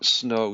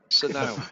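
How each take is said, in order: First: The S merges into a single syllable. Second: The S is said as a separate syllable. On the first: The speaker calls it right. "it merges into one one syllable" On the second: The speaker calls it wrong. "they pronounce the S as a as a syllable"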